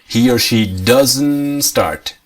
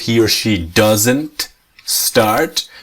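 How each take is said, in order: First: The T is silent, doesn't linked to start. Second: The T of doesn't is pronounced separately. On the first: "But the native pronunciation is" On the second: "In the negative"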